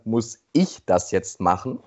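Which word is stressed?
ich. The word ich is stressed. It asks whether someone else should do it. "Eine andere Betonung ist dann"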